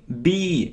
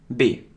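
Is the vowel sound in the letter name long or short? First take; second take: long; short. First: The vowel is long and drawn out. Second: The vowel is short and clipped. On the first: The speaker calls it right. "Это именно долгий звук" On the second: The speaker calls it wrong. "Даже учат произносить неправильно"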